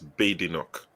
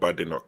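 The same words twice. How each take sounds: First: The name begins without the sound 'bad'. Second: The name begins with the sound 'bad'. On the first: The speaker calls it right. "It's Badenoch" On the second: The speaker calls it wrong. "her name is not Badenoch"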